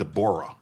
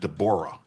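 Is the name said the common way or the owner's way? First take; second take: owner's; owner's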